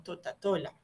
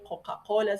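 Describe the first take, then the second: First: Put-on "Totatola" said with t in place of the c sounds, like a small child; child's mispronunciation. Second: Said in the usual way. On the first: Shown as a demonstration. Therapist demonstrating a child's dyslalia to parents, "Totatola" with t for k. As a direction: say "Totatola", swapping each k sound for a t. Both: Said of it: "el que cambia una letra por otra".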